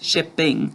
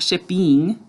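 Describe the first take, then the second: First: The last syllable has a short 'i' vowel. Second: The last syllable has an 'ee' vowel. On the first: The speaker calls it right. "make sure we're saying I" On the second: The speaker calls it wrong. "I hear a lot of us say E, but it's not shipping"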